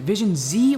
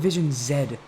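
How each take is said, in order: First: The final letter is pronounced 'zee'. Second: The final letter is pronounced 'zed'. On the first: "do you guys pronounce it Z or Zed?" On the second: "do you guys pronounce it Z or Zed?"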